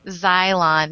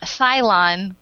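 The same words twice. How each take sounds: First: "Xylon" starting with a clear Z. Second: "Cylon" starting with a hissed S; "Cylon" with S rather than Z. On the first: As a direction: say "Xylon" as ZY-lon. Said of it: "With a Z". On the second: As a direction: say "Cylon" as SY-lon. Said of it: "not Cylon". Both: Shown as a demonstration.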